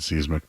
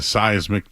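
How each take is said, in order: First: The word has an unusual, funny pronunciation. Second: The word has its usual pronunciation. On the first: The speaker calls it wrong. "There's words I know I say funny" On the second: The speaker calls it right. "instead of a seismic change"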